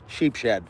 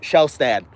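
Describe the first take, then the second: First: The first part sounds like 'sheep'. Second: The first part sounds like 'shell'. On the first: The speaker calls it wrong. "I can never say his name right. I always say Sheepshed" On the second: The speaker calls it right. "but Shellstad"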